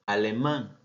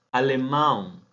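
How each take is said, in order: First: Said in the usual way. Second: "alemán" said as Portuguese alemão, ending in a nasal "aun"; Portuguese pronunciation. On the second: Shown as a demonstration. Teacher shows students the Portuguese word, nasal ending. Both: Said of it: "Tenemos otra".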